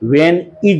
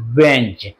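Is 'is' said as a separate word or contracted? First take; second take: separate; contracted. First: The word 'is' is said in full. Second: The word 'is' is reduced to a z sound. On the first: The speaker calls it wrong. "व्हेन इज नहीं बोलते हैं" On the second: The speaker calls it right. "आपको वेंज बोलते हैं"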